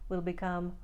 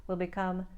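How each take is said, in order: No difference in how they are said.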